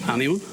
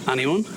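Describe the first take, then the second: No difference in how they are said.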